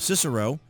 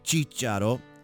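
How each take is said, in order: First: The name is said with an American pronunciation. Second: The name is said with an Italian pronunciation. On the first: "I think is the way most Americans would say it" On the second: "as the Italians would say"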